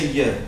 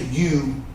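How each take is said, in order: First: The vowel is reduced to a weak 'ya'. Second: The vowel is a full, clear 'you'. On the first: This is how most people say it. "Most people are going to say y" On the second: Most people do not say it this way. "They're not going to say you"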